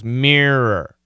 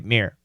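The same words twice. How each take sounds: First: The word is said with two clear syllables. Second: The word is squeezed fast into one syllable. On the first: The speaker calls it right. "We should sense those two syllables" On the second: The speaker calls it wrong. "when we say it fast, it is kind of possible to just say mirror"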